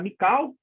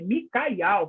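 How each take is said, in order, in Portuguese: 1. O nome é falado com duas sílabas. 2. O nome é falado com três sílabas. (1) "uns fala Mical, e não é Mical" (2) "é Micael, que tem o nome de Al"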